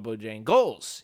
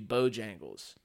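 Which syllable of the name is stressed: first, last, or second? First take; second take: last; first. First: The stress is on the last syllable. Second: The stress is on the first syllable. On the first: "Kind of hit it at the end" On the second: "it's supposed to be Bojangles"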